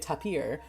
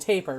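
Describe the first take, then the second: First: It sounds like 'ta-peer', ending in '-peer'. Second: It sounds like 'taper', ending in a plain '-per'. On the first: The speaker calls it wrong. "how much they say tapir" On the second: The speaker calls it right. "it's actually taper"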